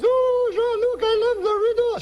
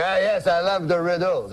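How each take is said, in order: First: Squeaky-high falsetto wife; high woman's voice. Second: Put-on comic Frenchman uncle accent; French-Canadian accent. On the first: Acted. Wife delighted by uncle's riddle, high falsetto woman's voice. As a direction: go way up into comic falsetto. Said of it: "She's a woman, high voice". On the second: Uncle tells cab driver he loves riddles, French-Canadian accent. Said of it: "That's how he talks".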